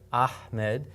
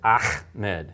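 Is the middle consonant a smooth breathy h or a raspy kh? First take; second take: breathy; raspy. First: The h is pure breath with no friction. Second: The h is a raspy, grating kh sound. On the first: The speaker calls it right. "it's got a hard H sound, but it's a ha" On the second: The speaker calls it wrong. "pronounced incorrectly as Ahmed"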